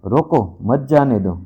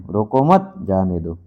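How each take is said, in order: First: रोको set apart, then मत जाने दो run together; pause after रोको. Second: रोको मत run together, then जाने दो set apart; pause after मत. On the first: Teacher showing how a comma changes meaning, pause after रोको. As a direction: break right after रोको, keep मत with जाने दो. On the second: Teacher showing how a comma changes meaning, pause after मत. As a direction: break right after मत, before जाने दो. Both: Shown as a demonstration. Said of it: "उनके ठहराव के कारण".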